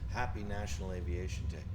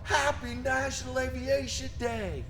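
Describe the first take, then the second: First: It is said with the least energy. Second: It is said with the most energy.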